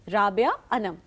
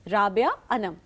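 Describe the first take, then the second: First: A short pause separates the two names. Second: The same.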